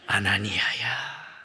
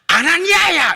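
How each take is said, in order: First: The name is called in a very gentle way. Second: The name is called in a harsh, forceful way. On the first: The speaker calls it right. "아주 부드럽게 부르셔요" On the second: The speaker calls it wrong. "이렇게 하면 안 됩니다"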